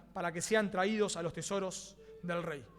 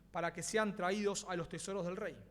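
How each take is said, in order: No difference in how they are said.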